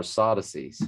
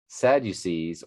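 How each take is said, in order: First: Sadducees as SAH-duh-seez, open ah and no you; alternate pronunciation. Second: Sadducees as SAD-you-seez, short A and long final ee; familiar pronunciation. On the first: Reader giving the forms he has heard, second SAH-duh-seez. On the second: Reader giving the forms he has heard, first SAD-you-seez. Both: Shown as a demonstration. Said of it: "which is how I've heard it pronounced".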